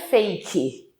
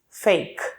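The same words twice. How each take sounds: First: A vowel is sounded after the final k. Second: The word ends on k with no vowel. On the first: The speaker calls it wrong. "Não é fake" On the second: The speaker calls it right. "A gente não pronuncia o E"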